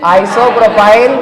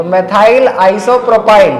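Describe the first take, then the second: First: Isopropyl stretched very slowly with a rise; teacher repeating the word slowly; very slow dictation. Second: Methyl isopropyl stretched out very slowly; teacher spelling the name out slowly; very slow dictation. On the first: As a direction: draw isopropyl out, rising at the end. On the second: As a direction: drag each syllable out for the class. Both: Shown as a demonstration. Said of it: "क्या बोलेंगे?".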